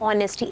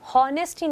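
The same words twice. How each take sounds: First: The word begins with a silent H. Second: The word begins with a pronounced H sound. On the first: The speaker calls it right. "H silent होता है" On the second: The speaker calls it wrong. "तो हम honesty नहीं बोलते"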